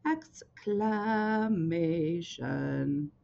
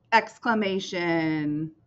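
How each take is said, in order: First: Drawn out. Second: Slow. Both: Shown as a demonstration.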